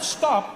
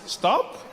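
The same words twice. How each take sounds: First: It sounds like a firm, forceful command. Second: It sounds like a gentle, casual suggestion.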